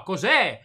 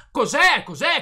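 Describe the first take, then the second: First: Said in the usual way. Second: Angry shout. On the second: Real, not acted. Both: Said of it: "Non gridare".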